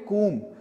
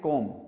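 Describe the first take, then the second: First: The vowel sounds like 'oo'. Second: The vowel sounds like 'oh'. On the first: The speaker calls it right. "तो आप इसको बोलिए कूम" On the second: The speaker calls it wrong. "ये गलत तरीका है इसको कहने का"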